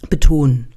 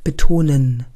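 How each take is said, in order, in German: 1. Das Wortende wird verschluckt. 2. Das Wort wird bis zum Ende voll gesprochen. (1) "Jetzt hättest du nicht bis zu Ende gesprochen" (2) "Jetzt hast du es bis zu Ende gesprochen"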